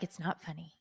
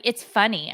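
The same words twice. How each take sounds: First: "It's not funny" said much softer and flat, stress on "not"; flat denial. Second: Said in the usual way. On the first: Retold or imitated. Wife to husband, "It's not funny" said flat and quiet. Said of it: "I'm like". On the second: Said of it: "'cause he's like".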